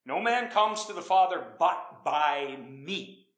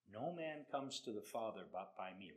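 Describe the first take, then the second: First: "No man comes to the Father but by me." drawn out, "man" stressed; slow and weighty, driving it home; louder, deliberate scripture line; emphatic slow quote. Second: Said in the usual way. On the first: Shown as a demonstration. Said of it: "you got that?". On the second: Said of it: "And he then says".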